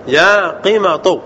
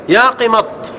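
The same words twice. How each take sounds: First: قمط drawn out slowly, ending in u; damma ending. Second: قمط stopping on the ط with no vowel; final r dropped. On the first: Teacher shows the non-waiting form, قمط slowly ending in tu. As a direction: stretch قمط and finish it on tu. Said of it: "على الضم". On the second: Teacher shows the awaited-letter form, قمط closed on the ط. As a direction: cut قمط short on a closed t. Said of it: "تحذف الراء". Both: Shown as a demonstration.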